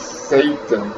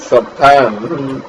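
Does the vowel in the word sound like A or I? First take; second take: A; I. First: The vowel is pronounced with an A sound. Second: The vowel is pronounced with an I sound. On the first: The speaker calls it wrong. "I think I mispronounced that" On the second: The speaker calls it right. "but not with an A, but with an I"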